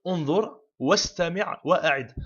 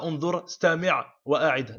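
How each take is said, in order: First: "Unzur, wastami', wa'a'id" with "wa" joined to each following word; correct, with wa. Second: "unzur, stami', wa'a'id" listed with no "wa" before "stami'"; wrong, without wa. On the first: Teacher corrects the list for learners, "wa" heard in "wastami'". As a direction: link "wa" onto "stami'" as one word, "wastami'". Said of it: "on les met le wa". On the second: Teacher shows learners the faulty list, "stami'" without its "wa". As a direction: say "stami'" bare, straight after "unzur", dropping the linking "wa". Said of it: "On dit pas". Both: Shown as a demonstration.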